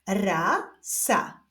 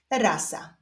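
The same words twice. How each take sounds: First: Stretched first syllable, pause, then second; drawn-out, divided syllables; syllable reading. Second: Said in the usual way. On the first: Shown as a demonstration. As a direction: read it slowly as two separate syllables. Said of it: "doczytujemy sylabę różową". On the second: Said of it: "połączenia tych dwóch sylab wyjdzie nam wyraz".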